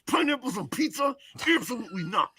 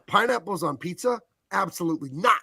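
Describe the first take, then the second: First: It is said through tightly clenched teeth. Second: It is said with a relaxed, open jaw.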